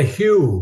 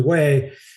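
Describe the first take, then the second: First: The name is said like English 'hew'. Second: The name is said like English 'way'. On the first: The speaker calls it wrong. "we didn't know how to pronounce it because we're calling it Hugh" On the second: The speaker calls it right. "actually Way"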